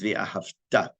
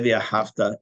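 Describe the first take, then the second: First: The stress falls on the last syllable. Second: The stress falls before the last syllable. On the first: It means you will love. The speaker calls it right. "The accent's on the last syllable" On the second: It means and you loved. The speaker calls it wrong. "If you say the Ahavta, not only is it wrong"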